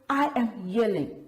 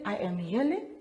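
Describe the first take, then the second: First: It is said in a loud, forceful voice. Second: It is said in a calm, flat voice. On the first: It is an exclamation. The speaker calls it right. "We we read that with an exclamation mark" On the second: It is a plain statement. The speaker calls it wrong. "Do we just say"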